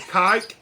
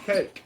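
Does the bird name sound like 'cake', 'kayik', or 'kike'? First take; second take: kike; cake. First: It is said in one syllable, rhyming with 'bike'. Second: It is said in one syllable, rhyming with 'bake'. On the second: "I've heard some people call them cakes"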